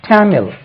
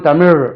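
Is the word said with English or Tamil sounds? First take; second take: English; Tamil. First: It is said with English sounds. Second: It is said with Tamil sounds. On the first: The speaker calls it right. "ஆங்கிலத்தில் சொல்லும்போது" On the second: The speaker calls it wrong. "அப்படின்னு சொல்றது இல்லை"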